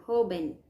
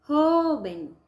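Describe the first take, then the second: First: Said in the usual way. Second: "Joven" with JO stretched, high and loud; long, raised JO in "Joven"; stressed first syllable. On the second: Shown as a demonstration. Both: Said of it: "A sílaba tônica".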